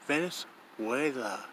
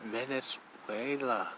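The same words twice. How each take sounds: First: Venezuela said ven-eh-SWAY-lah, testing each syllable; careful pronunciation. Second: Venezuela said slowly, ven-eh-SWAY-lah, falling; slow careful pronunciation. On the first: Vlogger testing how to say a country name, careful. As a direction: try Venezuela out carefully, falling at the end. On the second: Vlogger checking the name of the country, slow and careful. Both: Shown as a demonstration. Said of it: "Is that how it's pronounced?".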